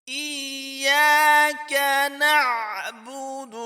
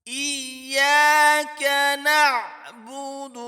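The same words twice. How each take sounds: Both takes have the same delivery.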